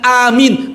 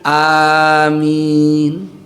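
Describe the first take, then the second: First: Only the first vowel is long; second is short. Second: Both the first and second vowels are long. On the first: It is a command to believe. "Kalau a-nya panjang a, lalu min-nya mim-nya dibaca pendek" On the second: It asks that the prayer be answered. "lafaz yang benar a-nya dipanjangkan, min-nya pun dipanjangkan"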